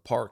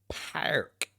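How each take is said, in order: First: The r sound is ordinary and soft. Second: The r sound is hard and drawn out. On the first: This is how people outside Buffalo say it. "You don't go to the park in Buffalo" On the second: This is how people in Buffalo say it. "You go to the park, park. Like that shit is annoying"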